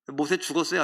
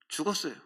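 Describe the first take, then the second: First: "죽었어요" asked with a rising end; questioning tone. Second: "죽었어요" settled with a falling, quieter end; answering tone. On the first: Preacher quizzes the congregation, rising question. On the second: Preacher answers his own question, falling statement. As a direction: let "죽었어요" drop down firmly as the answer. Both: Shown as a demonstration. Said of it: "안 죽었어요?".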